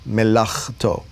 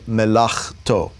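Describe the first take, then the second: First: The middle consonant is a rough guttural sound. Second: The same.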